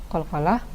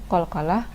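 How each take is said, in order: Both takes have the same delivery.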